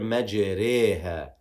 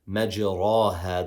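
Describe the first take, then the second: First: The vowel after the r leans toward e. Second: The vowel after the r is an open a. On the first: This is the special reading marked by the symbol. The speaker calls it right. "We say here majreha" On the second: This is the usual reading of the word. The speaker calls it wrong. "the way we should pronounce this word normally"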